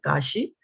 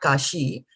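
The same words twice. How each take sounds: First: The i vowel is short and soft. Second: The i vowel is long and drawn out. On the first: The speaker calls it right. "it's a soft I here" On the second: The speaker calls it wrong. "not kashi"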